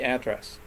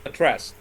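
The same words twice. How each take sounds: First: The stress is on the first syllable. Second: The stress is on the second syllable. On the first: It is used as a noun. "But when it's a noun, it can be address" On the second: It is used as a verb. "so when it's a verb, it's a address"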